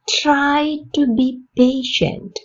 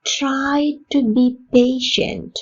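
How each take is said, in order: First: Slow, clear repeat with a falling end; slow model repeat. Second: Slow, careful teacher model read; slow model sentence. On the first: Teacher repeating the sentence for learners, slow and clear. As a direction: say it again slowly, ending down. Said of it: "repeat for learners". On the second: Teacher modelling a sentence for Tamil learners, slow and clear. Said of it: "model sentence repeated slowly". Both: Shown as a demonstration.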